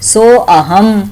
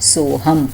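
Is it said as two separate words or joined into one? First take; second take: separate; joined. First: It is said as two separate words. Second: It is said as one joined word. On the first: "કેવી રીતે બોલાય એને?" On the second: "પણ બોલવાનું શું હોય?"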